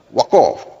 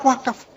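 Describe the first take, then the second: First: The second vowel is an 'o' sound. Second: The second vowel is an open 'a' sound.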